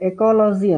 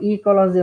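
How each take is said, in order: First: The first vowel sounds like 'eh'. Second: The first vowel sounds like 'ee'. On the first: "English ಅಲ್ಲಿ ಏನಂತ ಕರಿತೀವಿ ಅಂದ್ರೆ ಎಕಾಲಜಿ ಅಂತೀವಿ" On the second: "ಕೆಲವರು ಈಕಾಲಜಿ ಅಂತ pronounce ಮಾಡ್ತಾರೆ"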